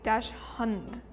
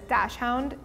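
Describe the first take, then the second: First: The second part sounds like 'hund'. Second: The second part sounds like 'hound'. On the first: This is reading the word as it is spelled. "it would be dash hund if I read it straight" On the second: This is how most people commonly say it. "everybody says dash hound"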